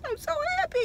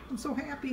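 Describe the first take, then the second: First: Squeaked much higher; happy squeal. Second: Softer, contented. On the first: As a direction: burst out in delight. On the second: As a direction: say it quietly satisfied. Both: Real, not acted.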